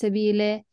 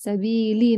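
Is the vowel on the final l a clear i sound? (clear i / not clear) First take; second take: not clear; clear i. First: The final l lacks a clear i vowel. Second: The final l carries a clear i vowel. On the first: The speaker calls it wrong. "مش" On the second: The speaker calls it right. "اكسر كويس"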